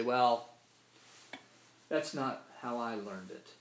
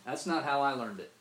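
First: Slow, drawn-out Mississippi-style retort; Mississippi drawl. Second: Louder, curt brush-off stressing not; dismissive retort. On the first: Preacher imitates a Mississippi listener dismissing scripture, drawled Mississippi retort. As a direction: mimic a Mississippi churchgoer brushing off a truth, slowly. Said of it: "That's how we say it in Mississippi". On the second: Preacher voices the stock reply to unwelcome truth, loud dismissive retort. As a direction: throw it out like a shrug-off. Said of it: "that's a phrase we just throw out there". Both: Retold or imitated.

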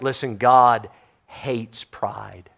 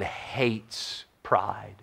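First: Slow, low, weighty God hates pride; stress on God hates pride. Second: Slow breathy whisper of God hates pride; whispered emphasis. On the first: Pastor to congregation, slow and weighty. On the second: Pastor to congregation, hushed whispered warning. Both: Real, not acted. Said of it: "I cannot emphasize that enough".

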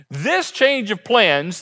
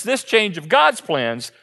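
First: Said in the usual way. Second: Slow, with God's leaned on and falling; stress on God's. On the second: Shown as a demonstration. Preacher restating to stress it is God's plan, weight on God's. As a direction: hit the word God's.

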